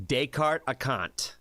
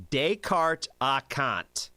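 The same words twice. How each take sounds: First: Descartes Acant said slowly again, starting with a harder T, tay-cart uh-CANT; second attempt. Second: Descartes Acant said slowly with a laugh, day-cart ah-CANT; trying to pronounce. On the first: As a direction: try Descartes Acant once more, slowly. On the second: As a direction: sound out Descartes Acant haltingly. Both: Shown as a demonstration. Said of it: "This is pronounced".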